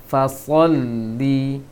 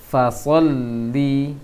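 No difference in how they are said.

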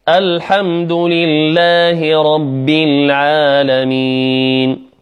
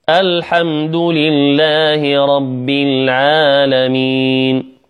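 No difference in how they are said.

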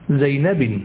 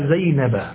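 First: The name ends with the nunation sound 'in'. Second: The name ends with a short 'a' vowel. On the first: The speaker calls it wrong. "ولا تقول زينب" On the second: The speaker calls it right. "تقول ذهبت إلى زينب"

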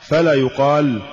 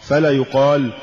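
The two takes are said the same way.

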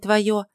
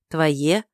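First: The last vowel is pronounced 'yo'. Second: The last vowel is pronounced 'ye'. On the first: The speaker calls it wrong. "а не «твое»" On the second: The speaker calls it right. "нет звука «ё», поэтому следует читать «твое»"

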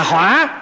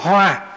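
First: The word is said on a dipping tone. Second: The word is said on a level tone. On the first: Fire. "một cái dấu hỏi nó thành lửa là hỏa" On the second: A flower. "chữ H rồi chữ O"

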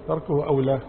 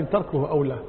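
No difference in how they are said.

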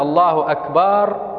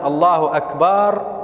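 First: The vowel after the b is drawn out long. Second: The same.

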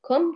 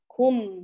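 First: The vowel is only partly rounded. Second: The vowel is fully rounded. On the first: The speaker calls it wrong. "ليس كم كم خطأ" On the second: The speaker calls it right. "أتم الضم"

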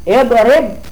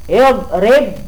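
The two takes are said the same way.

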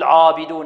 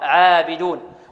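First: The first syllable is pronounced heavy and thick. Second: The first syllable is pronounced light and thin. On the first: The speaker calls it wrong. "لا نقول عابدون، عا خطأ" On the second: The speaker calls it right. "كذلك مرققة"

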